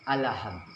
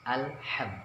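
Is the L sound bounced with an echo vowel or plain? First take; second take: bounced; plain. First: The L bounces with an added echo vowel. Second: The L is closed plainly with no echo. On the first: The speaker calls it wrong. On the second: The speaker calls it right. "tak ada pantulan, l-nya hanya satu"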